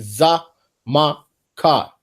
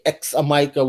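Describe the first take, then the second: First: The word begins with a 'z' sound. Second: The word begins with a 'ks' sound. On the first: The speaker calls it right. "we just say Za Ma Ka" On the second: The speaker calls it wrong. "we don't say X Amika"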